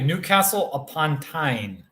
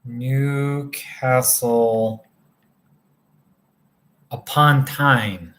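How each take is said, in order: First: Said in the usual way. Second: Slow, drawn-out "Newcastle upon Tyne" with a pause before "upon"; careful second try. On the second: Real, not acted. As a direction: say "Newcastle ... upon Tyne" slowly and deliberately, word by word. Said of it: "let me try that again".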